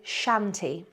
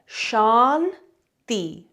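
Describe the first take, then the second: First: It sounds like the English word shanty. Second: It does not sound like English shanty. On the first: The speaker calls it wrong. "they say shanty, like it's a shanty town" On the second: The speaker calls it right. "We've got two syllables here"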